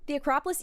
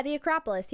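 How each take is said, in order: First: Rising, questioning tone. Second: Falling, settled tone; confirming. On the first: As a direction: end it on a questioning rise. Checks the name, then confirms it. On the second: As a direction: state it as a confirmed answer. Confirms the name after asking. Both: Real, not acted.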